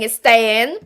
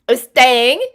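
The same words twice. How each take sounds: First: Said in the usual way. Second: Put-on British accent. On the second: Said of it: "I cannot not use a British accent".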